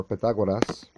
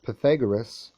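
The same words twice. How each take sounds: First: Pythagoras said Greek-style, pih-tha-GWAH-das, with tapped R; Greek-flavored form of Pythagoras, offered as the alternative; alternative pronunciation. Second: PYTHAGORAS said the English way, puh-THAG-uh-rus; everyday English form of Pythagoras, clearly projected; anglicized pronunciation. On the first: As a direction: say Pythagoras with an open A and tapped R, louder. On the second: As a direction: say Pythagoras with an English R and weak ending, louder. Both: Shown as a demonstration. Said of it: "however you want to pronounce the".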